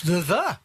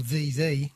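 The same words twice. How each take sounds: First: Both words THE with a schwa, "thuh thuh"; short unstressed vowel in both, THE THE like "thuh thuh". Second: Both words THE with a long ee, "thee thee"; long vowel in both, THE THE rhyming with "see see". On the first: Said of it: "or The The, depending". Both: Shown as a demonstration.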